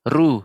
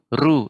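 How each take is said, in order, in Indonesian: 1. Huruf r diucapkan tipis dan ringan. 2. Huruf r diucapkan tipis dan ringan.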